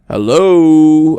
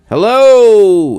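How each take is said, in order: First: It is said in a deep baritone. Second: It is said in a high falsetto.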